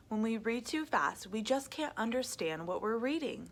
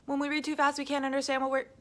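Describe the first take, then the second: First: Said in the usual way. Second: Rushed, loud and high; reading too fast. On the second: Shown as a demonstration. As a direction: race through the words. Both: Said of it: "But as you can see".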